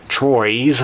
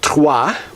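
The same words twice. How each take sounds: First: The name is said with an American pronunciation. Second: The name is said with a non-American pronunciation.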